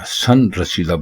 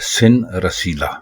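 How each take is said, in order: First: The first vowel is 'a'. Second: The first vowel is 'i'. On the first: The speaker calls it wrong. "जो कि बिल्कुल गलत है" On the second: The speaker calls it right. "दुरुस्त लफ्ज है सिन रसीला"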